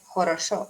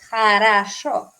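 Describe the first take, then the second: First: Every vowel is pronounced as a full o. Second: The unstressed vowels are reduced toward a. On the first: The speaker calls it wrong. "y no es хорошо" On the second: The speaker calls it right. "es хорошо"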